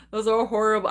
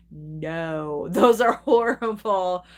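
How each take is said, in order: First: Said in the usual way. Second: Slow disgusted dismissal. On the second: Real, not acted. To chat about bad Jaws sequels, slow disgusted drag. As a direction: draw it out like it tastes bad.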